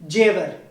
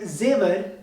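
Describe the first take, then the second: First: The word begins with a J sound. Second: The word begins with a Z sound. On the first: "they simply pronounce the letter J" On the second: "Instead of pronouncing the letter Z"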